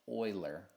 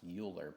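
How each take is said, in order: First: The name begins with an 'oy' sound. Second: The name begins with a 'you' sound. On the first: It is the accepted way to say the name. The speaker calls it right. "the proper pronunciation is Euler" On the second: It is said the way it looks in writing. The speaker calls it wrong. "to me it looks like it should be pronounced Euler"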